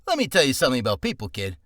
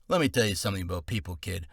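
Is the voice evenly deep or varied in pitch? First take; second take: varied; evenly deep. First: The voice mixes low tone with higher pitch. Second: The voice stays deep and even, without swagger.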